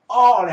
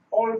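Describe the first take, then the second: First: The vowel is said with the mouth opened wide. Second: The vowel is said with the mouth barely open. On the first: The speaker calls it right. "입을 크게 벌리고 o 발음을 해줘야 돼요" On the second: The speaker calls it wrong. "한국식 발음한 겁니다"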